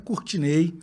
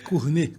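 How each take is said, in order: First: The name is pronounced the Brazilian way. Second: The name is pronounced the French way. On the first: "mas eu sou baiano, então a pronúncia mais comum é" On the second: "meu nome é francês, então a pronúncia correta é"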